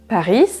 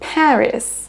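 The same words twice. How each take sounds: First: The first syllable is not stressed. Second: The first syllable is stressed. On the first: The speaker calls it wrong. "On ne dira pas donc Paris" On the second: The speaker calls it right. "On accentue sur la première syllabe"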